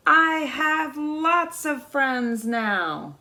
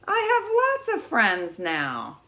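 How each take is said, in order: First: Slow, drawn-out happy call across the pond; happy loud call. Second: Said in the usual way. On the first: Acted. Little beaver calling across the pond to his friends, slow and loud. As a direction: call it out slowly, full of joy. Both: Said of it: "said it again very loudly".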